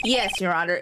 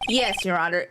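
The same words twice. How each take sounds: First: It is said in a put-on character voice. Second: The same.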